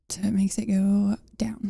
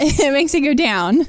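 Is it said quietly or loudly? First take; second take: quietly; loudly. First: It is said at normal, quieter volume. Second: It is said louder.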